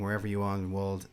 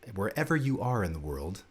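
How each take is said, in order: First: It is said in an ordinary speaking voice. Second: It is said in a put-on announcer voice.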